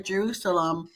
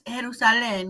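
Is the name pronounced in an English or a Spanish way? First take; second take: English; Spanish. First: The name is pronounced with English sounds. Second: The name is pronounced with Spanish sounds.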